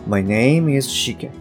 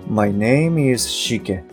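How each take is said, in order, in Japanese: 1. 声がしっかりして、お腹から出ている感じです。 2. 声がしっかりして、お腹から出ている感じです。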